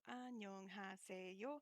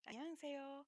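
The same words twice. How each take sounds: First: It is said slowly, syllable by syllable. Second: It is said quickly, with the h softened. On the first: "you'll go from" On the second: "get a little bit faster until you get to"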